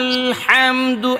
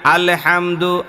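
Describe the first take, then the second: First: The L is held smoothly without an added echo. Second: The L bounces with an added short echo vowel. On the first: The speaker calls it right. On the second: The speaker calls it wrong.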